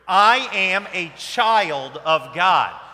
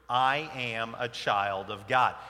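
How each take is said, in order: First: It is said with more, livelier energy. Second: It is said with low, sleepy energy.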